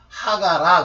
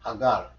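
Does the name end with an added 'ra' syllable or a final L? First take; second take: added ra; final L. First: The name ends with an added 'ra' syllable. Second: The name ends in a final L sound. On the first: The speaker calls it wrong. "R자 발음을 영어식으로 안 하면서 하가라 그런 거예요" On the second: The speaker calls it right. "하갈이라고 해야지"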